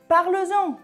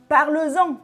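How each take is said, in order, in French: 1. Un son z relie les deux mots. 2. Un son z relie les deux mots.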